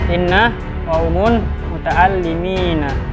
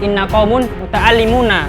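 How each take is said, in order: First: The last word ends with an 'ina' sound. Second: The last word ends with an 'una' sound. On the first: The speaker calls it wrong. "ini sudah terjadi lahan" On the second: The speaker calls it right. "ini yang benar"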